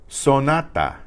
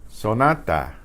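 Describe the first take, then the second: Both takes have the same delivery.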